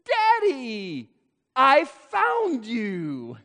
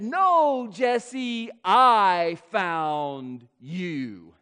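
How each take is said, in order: First: High, slow and delighted, stress on "found"; a small boy beaming as he spots his dad; child's "I FOUND you"; toddler's voice. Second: "I" stretched out and stressed, very slow and tender; slow, loving correction with "I" stressed; father gently correcting his son. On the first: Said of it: "He said". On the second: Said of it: "And I said". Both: Retold or imitated.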